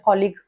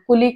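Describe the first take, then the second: First: The first vowel sounds like 'aw'. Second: The first vowel sounds like 'oo'. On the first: The speaker calls it right. "त्याचा उच्चार कॉलिग असा असतो" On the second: The speaker calls it wrong. "बरेच जण याला कुलीग किंवा कलिग असं म्हणतात"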